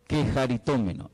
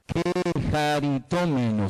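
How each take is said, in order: First: Said in the usual way. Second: "Quejaritómeno" drawn out slowly, syllable by syllable; careful pronunciation. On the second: Shown as a demonstration. Preacher showing how a Greek word is pronounced, slow and careful "Quejaritómeno". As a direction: sound out "Quejaritómeno" slowly and clearly. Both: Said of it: "se pronuncia".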